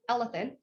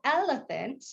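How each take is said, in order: First: The word is said quickly with small mouth movements. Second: The word is said slowly with big mouth movements. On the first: "if I were to say it real quick" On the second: "I can do big movements"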